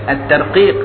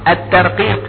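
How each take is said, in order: No difference in how they are said.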